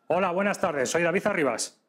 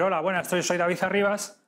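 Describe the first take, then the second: First: The voice is firm and forceful. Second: The voice is light and casual.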